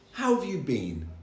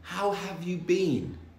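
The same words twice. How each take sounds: First: The phrase is said quickly and reduced. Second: The phrase is said slowly and clearly.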